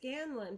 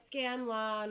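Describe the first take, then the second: First: The last syllable is a short, reduced 'lun'. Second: The last syllable is a full 'lawn' sound. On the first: The speaker calls it right. "I just say Scanlon" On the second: The speaker calls it wrong. "people say lawn"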